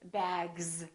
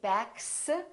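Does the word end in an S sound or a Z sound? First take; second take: Z sound; S sound. First: The final sound is a buzzing Z. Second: The final sound is a hissing S. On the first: The speaker calls it right. "we say" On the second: The speaker calls it wrong. "we don't say"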